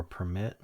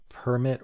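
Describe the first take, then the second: First: Permit said as per-MIT; stress on second syllable. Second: Permit said as PER-mit; stress on first syllable. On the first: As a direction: permit as the verb, weight on MIT. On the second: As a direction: Permit as the noun, weight on PER. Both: Shown as a demonstration. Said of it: "Is it the noun or the verb?".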